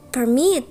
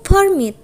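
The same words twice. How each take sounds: First: "permit" as a verb, weight on -MIT; verb stress. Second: "permit" as a noun, PER- stressed and high, falling after. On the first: Lecturer showing the verb form, stress on the second syllable. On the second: Lecturer showing the noun form, stress first syllable. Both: Shown as a demonstration. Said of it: "change in the position of the stress".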